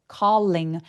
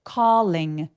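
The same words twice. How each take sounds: No difference in how they are said.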